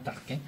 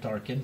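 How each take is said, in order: First: The name sounds unlike the Star Wars character's name. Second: The name sounds like the Star Wars character's name. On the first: This is how the name is really pronounced. The speaker calls it right. "mais c'est vraiment Tarkin" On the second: This is the speaker's own habitual pronunciation. The speaker calls it wrong. "moi je le prononce comme Tarkin, comme Star, Star Wars"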